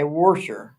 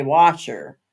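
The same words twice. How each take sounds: First: Warsher with an R before the sh, wor-sher; dialect warsher. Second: Said in the usual way. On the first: Shown as a demonstration. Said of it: "not a warsher". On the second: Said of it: "It's not a washer".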